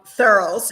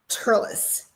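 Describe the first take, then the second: First: The word begins with a th sound. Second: The word begins with a plain t sound. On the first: The speaker calls it wrong. "the way it looks like it's spelled" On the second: The speaker calls it right. "But it really is Turles, T"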